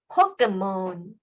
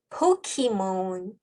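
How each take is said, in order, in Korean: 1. 중간 음절에는 짧은 eh 모음이 있어요. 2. 중간 음절에는 ee 모음이 있어요. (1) "포켓몬이라고도 하고요" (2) "포키몬이라고도 하고요"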